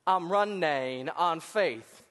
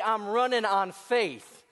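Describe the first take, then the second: First: It is said imitating Forrest Gump's voice. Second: It is said in his normal voice.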